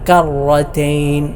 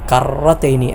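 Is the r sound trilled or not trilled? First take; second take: not trilled; trilled. First: The r sound is not trilled. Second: The r sound is strongly trilled. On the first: The speaker calls it right. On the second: The speaker calls it wrong.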